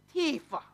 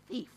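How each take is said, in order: First: The word is said in a Jamaican accent. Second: The word is said in a standard accent.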